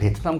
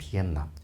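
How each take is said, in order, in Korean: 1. 가운데는 모음이 붙은 분명한 't'입니다. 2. 가운데는 비음 'n'이고 't'는 없습니다. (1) "우리는 베트남 그러는데" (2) "실제 그 사람들 발음은 비엔남이거든요"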